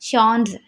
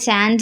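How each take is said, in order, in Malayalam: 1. ഫ്രഞ്ച് രീതിയിൽ, 'sh' ശബ്ദത്തിലാണ് തുടങ്ങുന്നത്. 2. ഇംഗ്ലീഷ് രീതിയിൽ, 'ch' ശബ്ദത്തിലാണ് തുടങ്ങുന്നത്. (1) "ഇവിടെ നമ്മൾ ചാൻസ് നല്ല പ്രൊണൗൺസ് ചെയ്യേണ്ടത് ഷോൺസ്" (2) "ചാൻസ് എന്ന് ഇംഗ്ലീഷിൽ പറയാം"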